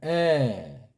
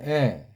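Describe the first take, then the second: First: The vowel is held for a long time. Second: The vowel is held only briefly. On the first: "기네" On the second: "짧은에"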